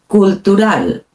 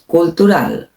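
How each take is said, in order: Both takes have the same delivery.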